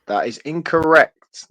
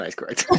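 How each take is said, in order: First: Slow, fake-serious game host ruling; mock stern verdict. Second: Much softer, lower, dropping the act; quiet real verdict. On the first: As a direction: announce it gravely as a joke. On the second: Real, not acted. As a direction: say it softly, plainly conceding. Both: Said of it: "No, I'm joking".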